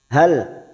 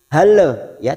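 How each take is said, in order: First: The final L stops cleanly without any added vowel. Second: The final L bounces with an added vowel sound. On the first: The speaker calls it right. "lam sukun hati-hati tawalud, jangan dibaca seperti memantul" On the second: The speaker calls it wrong. "tidak boleh yang seperti itu, namanya tawalud"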